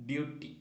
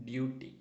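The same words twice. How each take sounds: No difference in how they are said.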